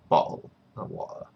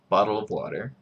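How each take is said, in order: First: The t sounds are left out entirely. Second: The t sounds come out like soft d's. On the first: "British people would say ... Or you completely omit the T's" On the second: "Utahns say the D. ... That's what I would say"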